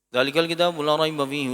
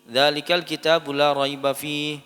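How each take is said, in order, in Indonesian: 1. Dibaca sangat cepat. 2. Dibaca dengan tempo sedang yang agak cepat. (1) "Kalau bisa lebih cepat lagi hadir" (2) "kalau misalkan bisa lebih cepat tadwir"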